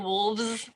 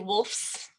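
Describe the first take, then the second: First: The consonant before the s is a v sound. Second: The consonant before the s is an f sound. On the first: The speaker calls it right. "We say wolves" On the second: The speaker calls it wrong. "we wouldn't say wolves, right, with an F. That just sounds silly"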